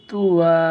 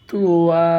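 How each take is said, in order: The two takes are said the same way.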